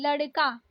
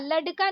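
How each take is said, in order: First: लड़का with tongue-flapped ड़; correct flapped ड़. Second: लड़का with hard ड, no flap; wrong hard D. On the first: Teacher giving learners the right form, flapped लड़का. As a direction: flick the ड़ lightly in लड़का. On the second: Teacher showing learners the mistake, hard-D लड़का. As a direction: say लड़का with a stiff D stop for ड़. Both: Shown as a demonstration. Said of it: "नहीं".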